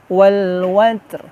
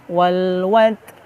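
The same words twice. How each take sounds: No difference in how they are said.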